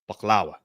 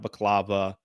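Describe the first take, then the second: First: The middle consonant is a w sound. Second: The middle consonant is a v sound. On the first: The speaker calls it right. "That's how you properly announce that" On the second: The speaker calls it wrong. "not baklava"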